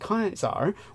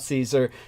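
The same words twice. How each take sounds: First: The name is said like the word Kaiser. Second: The name is said in an anglicized way. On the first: The speaker calls it right. "His real name was Caesar, where we get the word Kaiser from" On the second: The speaker calls it wrong. "It's not Caesar, which that's an anglicization"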